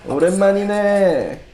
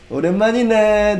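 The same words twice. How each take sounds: First: A hint of menacing loan shark; quick, higher threatening greeting. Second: Higher, louder, quick bossy greeting; bossy gangster tone. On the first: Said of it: "these loan shark tone". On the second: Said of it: "a little bit bossy". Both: Shown as a demonstration.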